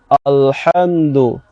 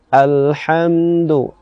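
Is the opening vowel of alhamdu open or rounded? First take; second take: rounded; open. First: The first vowel is rounded and heavy. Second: The first vowel is open and light. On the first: The speaker calls it wrong. "Contohnya yang tebal itu bagaimana? O, o, alhamdu" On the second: The speaker calls it right. "tarik mulut kita ke bagian samping"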